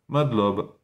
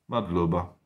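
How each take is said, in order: First: The final 'a' vowel is dropped entirely. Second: The final 'a' vowel is clearly pronounced.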